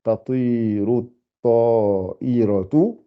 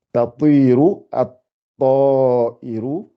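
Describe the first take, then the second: First: "Tatiru at-ta'iratu" slowly, with the ending -atu; drawn out "Tatiru at-ta'iratu", every syllable clear; slow corrected reading. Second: Slowly drawn out "tatiru at-ta'iru". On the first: Teacher correcting her reading for the class, slow. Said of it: "ta'iratu plutôt". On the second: Teacher reading the sentence to the class, very slow. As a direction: stretch every syllable of "tatiru at-ta'iru". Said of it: "faut bien, bien articuler". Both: Shown as a demonstration.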